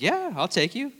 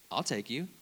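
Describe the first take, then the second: First: Much higher, lilting confirmation; imitated eager assurance. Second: Softer, casual retold offer; understated offer. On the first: David confirms the ride to the freshman, brightly reassuring. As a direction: confirm the offer with pitch leaping up. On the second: David first offers the freshman a ride, understated. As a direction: offer it quietly, pitch near usual.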